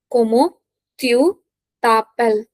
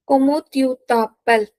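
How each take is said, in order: First: "Comment tu t'appelles" with a gap after each word; separated teaching delivery of "Comment tu t'appelles". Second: Said in the usual way. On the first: Shown as a demonstration. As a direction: break up "Comment tu t'appelles" for learners. Teacher dictates phrase in pieces.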